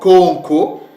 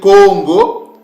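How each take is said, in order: First: The middle consonant is a K sound. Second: The middle consonant is a G sound. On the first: "ou encore Conco" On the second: "le K et le G se confondent"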